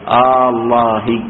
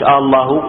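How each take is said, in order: First: The opening vowel is drawn out long. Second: The opening vowel is short and plain. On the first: It asks a question, as in an oath. The speaker calls it right. "مد التفريغ بين الاستفهام والخبر" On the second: It is a plain statement, not a question. The speaker calls it wrong. "مش الله"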